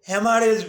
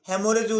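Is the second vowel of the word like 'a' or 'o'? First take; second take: a; o. First: The second vowel sounds like 'a'. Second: The second vowel sounds like 'o'. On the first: This is the form doctors usually use. "আমরা চিকিৎসকরা সাধারণত হ্যামারেজই বলে থাকি" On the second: This form is also acceptable. "হ্যামোরেজও বলা যেতে পারে"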